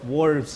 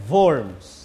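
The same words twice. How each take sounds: First: The word starts with an English W sound. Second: The word starts with a V sound. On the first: The speaker calls it wrong. "Huwag niyong basahin sa literal na English... Hindi yan Diet of Worms" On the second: The speaker calls it right. "Yan ay Diet of Worms. W in German is pronounced as V"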